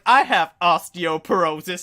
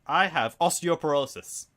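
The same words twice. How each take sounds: First: Slow, louder whiny complaint; imitating mum. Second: Meme quote. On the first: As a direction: drag it out like a moaning mum. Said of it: "she goes like". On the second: Retold or imitated. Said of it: "The iDubbbz meme".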